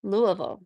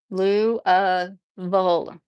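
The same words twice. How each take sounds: First: Louisville run together as LOO-uh-vul; local pronunciation demo. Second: Lou-uh-ville broken up very slowly, LOO... uh... vul; slow pronunciation demo. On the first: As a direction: say Louisville quickly, swallowing the middle into uh. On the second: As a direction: draw out each syllable of Lou-uh-ville. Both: Shown as a demonstration. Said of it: "they all pronounce it wrong".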